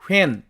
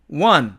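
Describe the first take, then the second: First: The h is sounded with a full vowel. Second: The h is dropped and the vowel is weakened. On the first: "이렇게 됩니다" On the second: "h는 탈락되고 n은 발음이 약화된"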